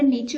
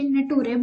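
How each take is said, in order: First: It is said as nay-cher, with a ch sound. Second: It is said as na-too-ray, letter by letter. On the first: The speaker calls it right. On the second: The speaker calls it wrong.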